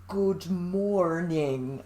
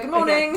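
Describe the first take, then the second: First: Each sound is pronounced carefully and stiffly. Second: The sounds are relaxed and run together.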